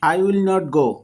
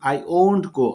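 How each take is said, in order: First: 'Will not' is said as two full words. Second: 'Will not' is contracted into one word.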